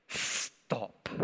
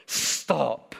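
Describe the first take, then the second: First: Whispered stop. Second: Firm stop. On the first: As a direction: stop whispered, much softer and lower. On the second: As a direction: stop said firmly in full voice with a falling tune. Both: Retold or imitated. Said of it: "my stop gets louder".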